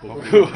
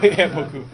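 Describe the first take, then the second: First: Loud mock French beaucoup. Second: Laughing through beaucoup. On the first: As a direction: belt out beaucoup in a hammy French accent. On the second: Real, not acted. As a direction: giggle out yeah, beaucoup.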